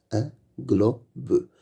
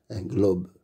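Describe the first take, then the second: First: Un globe split into un, glo, be; syllable by syllable. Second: Said in the usual way. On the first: Shown as a demonstration. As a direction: sound out "Un globe" with gaps between syllables. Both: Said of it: "Lis les mots".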